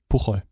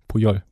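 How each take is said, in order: First: The middle consonant is a rasping ch sound. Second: The middle consonant is a soft y sound. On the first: The speaker calls it wrong. "sagt man nicht Puchol" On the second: The speaker calls it right. "Puyol sagt man"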